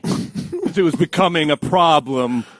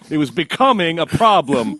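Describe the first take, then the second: First: No single word gets special emphasis. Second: The word becoming is strongly emphasized.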